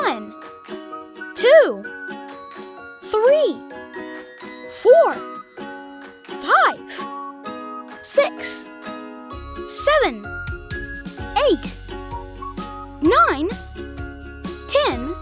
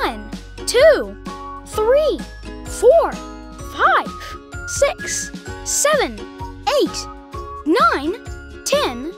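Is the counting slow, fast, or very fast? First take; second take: slow; fast. First: The numbers are counted at a slow pace. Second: The numbers are counted at a fast pace.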